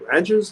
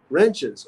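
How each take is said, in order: First: Ranches with a flat "a" as in ranch, asked in surprise; misread word. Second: Wrenches with a short "e" as in wrench; corrected word. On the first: Streamer misreading a chat message, saying Ranches. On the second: Streamer correcting his misreading, saying Wrenches. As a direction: say Wrenches properly, with an "e". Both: Shown as a demonstration. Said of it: "do you mean wrenches?".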